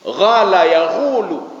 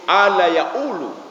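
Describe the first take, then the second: First: The first word begins with a gh sound. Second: The first word begins with a glottal stop. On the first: This is how Sudanese say it. "Kalau orang Sudan itu mengatakan qala yaqulu menjadi ghala yaqulu" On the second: This is how Egyptians say it. "tapi ala yaqulu. Jadi qa itu berubah menjadi hamzah"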